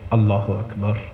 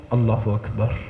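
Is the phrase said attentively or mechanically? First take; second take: attentive; attentive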